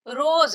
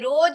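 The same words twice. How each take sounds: First: The word ends with a 'z' sound. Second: The word ends with a 'j' sound. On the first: The speaker calls it right. "यहाँ भी नुक्ता लगा है, रोज है" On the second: The speaker calls it wrong. "ये रोज नहीं है"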